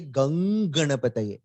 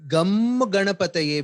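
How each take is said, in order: First: The first word ends in an ng sound. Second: The first word ends in an m sound. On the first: The speaker calls it right. "We say Gang Ganapataye" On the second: The speaker calls it wrong. "we don't say"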